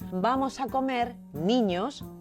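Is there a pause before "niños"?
yes. There is a pause before niños.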